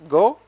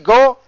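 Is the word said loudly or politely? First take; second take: politely; loudly. First: It is said gently and politely. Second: It is said loudly and forcefully.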